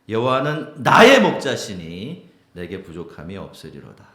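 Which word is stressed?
나의. The stress falls on 나의.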